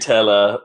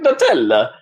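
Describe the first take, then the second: First: The first syllable sounds like English 'nut'. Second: It is said with a put-on Italian accent. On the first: "for N U T like naturally" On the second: "you say it with a dull Italian accent"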